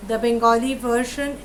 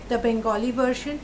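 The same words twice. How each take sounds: The two takes are said the same way.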